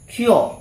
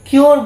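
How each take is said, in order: First: The word ends without any r sound. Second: The word ends with an audible r sound. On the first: The speaker calls it right. "আটটা হবে না" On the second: The speaker calls it wrong. "কিওর বলি না আমরা"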